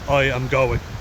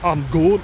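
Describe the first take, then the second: First: It is said in the speaker's plain accent. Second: It is said in a Scottish accent.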